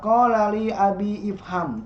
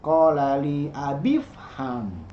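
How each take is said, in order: First: The i of ifham is pronounced separately. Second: The i of ifham is dropped and joined. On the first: The speaker calls it wrong. "Jadi tidak dibaca qala li abi ifham" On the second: The speaker calls it right. "tapi qala li abifham"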